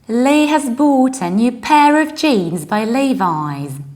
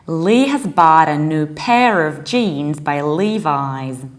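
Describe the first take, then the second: First: It is said in a British accent. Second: It is said in an American accent.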